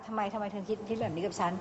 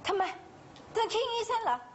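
First: The line is read flat and monotone. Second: The line is read with strong emotion. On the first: The speaker calls it right. "ให้อ่านแบบโมโนโทนเลยค่ะ" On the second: The speaker calls it wrong. "ห้ามใส่อารมณ์ด้วยห้ามแบบว่า"

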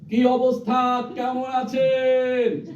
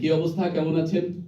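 First: It is shouted at full volume. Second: It is spoken louder, projected to the back. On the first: The listener is far away across the river. "এটা যদি বুড়িগঙ্গার ওই পাশে হয়" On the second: The listener is at the back of the room. "এটা ওই পেছনের ওনাকে বলি"

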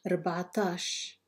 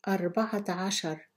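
First: It is said in a short, contracted form. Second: It is said in the full, long form. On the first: This is the everyday dialect form. "then say it in Algerian Arabic" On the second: This is the formal standard form. "I will read each number in Fusha Arabic"

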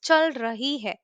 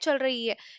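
First: It is said carefully, with the full 'rahi'. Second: It is said fast, with 'rahi' reduced to 'rai'.

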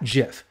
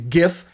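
First: The word begins with a soft j sound. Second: The word begins with a hard g sound. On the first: The speaker calls it wrong. "and not JIF" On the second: The speaker calls it right. "It is GIF and not JIF"

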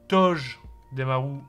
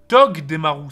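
First: The g is soft, like a j sound. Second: The g is hard, as in Togepi. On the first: The speaker calls it wrong. "Et non, en fait" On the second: The speaker calls it right. "Tog comme Togepi"

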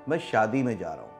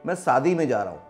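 First: Shaadi starts with an 'sh' sound. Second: Shaadi starts with a plain 's' sound. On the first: The speaker calls it right. "लेकिन है क्या" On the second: The speaker calls it wrong. "UP Bihar में कई बार श को सा बोला जाता है ना"

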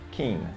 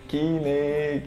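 First: The name has a native English pronunciation. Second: The name has a Brazilian Portuguese pronunciation. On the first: The speaker calls it right. "Na verdade, a pronúncia é Kine" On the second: The speaker calls it wrong. "muita gente no Brasil chama de Keane"

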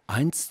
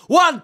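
First: The number is spoken at a normal level. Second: The number is shouted from farther away.

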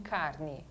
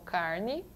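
First: The R is said with a São Paulo accent. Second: The R is said with a Piracicaba accent. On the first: "em carne de São Paulo" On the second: "o R de Piracicaba como carne"

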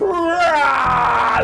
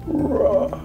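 First: The roar sounds angry. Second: The roar sounds sad.

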